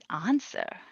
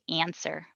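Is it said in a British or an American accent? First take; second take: British; American. First: It is said with a London British accent. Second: It is said with an American accent.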